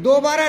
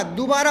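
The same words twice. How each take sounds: First: दोबारा said with a clear o, do-baara, as the wrong form; teacher saying दोबारा as do-baara to show the mistake; दोबारा with o in the first syllable, marked as wrong; wrong pronunciation. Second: दोबारा said with u, du-baara, as the right form; teacher correcting दोबारा to du-baara; दोबारा with a short u in the first syllable, as the fix; correct pronunciation. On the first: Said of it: "दोबारा नहीं होता". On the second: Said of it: "दोबारा होता है". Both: Shown as a demonstration.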